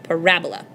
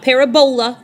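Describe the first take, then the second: First: The stress falls on the second syllable. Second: The stress falls on the third syllable. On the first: The speaker calls it right. "make sure you accent the correct syllable" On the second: The speaker calls it wrong. "It's not parabola, it's not Ebola"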